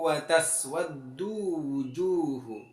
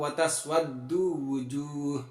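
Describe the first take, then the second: First: The last word ends with a final vowel. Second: The last word ends on an h sound.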